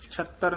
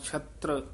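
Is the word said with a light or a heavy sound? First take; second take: heavy; light. First: The word is said with a heavy, forceful sound. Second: The word is said with a light, soft sound. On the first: The speaker calls it wrong. "ਛਤਰ ਨਹੀਂ ਕਹਿਣਾ" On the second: The speaker calls it right. "ਪੋਲਾ ਹੀ ਬੋਲਣਾ ਹੈ"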